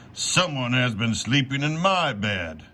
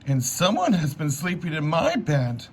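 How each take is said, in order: First: It is said in a big, deep voice. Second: It is said in a small, high voice.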